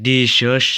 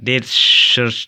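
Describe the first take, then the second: First: "research" with long open first syllable, "ree-serch"; correct pronunciation. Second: "research" with short first syllable closed by s, "res-serch"; common mispronunciation. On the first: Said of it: "แต่มันจะอ่านว่า". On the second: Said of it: "มักอ่านว่า". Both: Shown as a demonstration.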